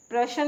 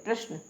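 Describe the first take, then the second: First: प्रश्न with added vowel, pra-shan; wrong pronunciation. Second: प्रश्न with joined sh-n, prash-na; correct pronunciation. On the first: Teacher showing the mistake, प्रश्न broken into pra-shan. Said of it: "प्रश्न नहीं बोलते हैं". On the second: Teacher correcting learners, प्रश्न said as prash-na. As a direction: run sh into n in प्रश्न. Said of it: "आधा श आता है". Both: Shown as a demonstration.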